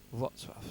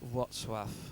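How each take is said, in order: First: The name is said with its native pronunciation. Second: The name is said with its native pronunciation.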